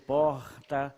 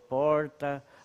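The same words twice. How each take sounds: First: It is said in a Rio de Janeiro accent. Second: It is said in a countryside accent. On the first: "no Rio porta" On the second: "no interior porta"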